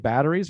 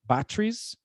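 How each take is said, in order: First: It is said in an American accent. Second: It is said in a British accent. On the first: "We say batteries" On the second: "they say batteries"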